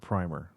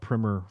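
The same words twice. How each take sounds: First: The word is said in a British way. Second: The word is said in an American way.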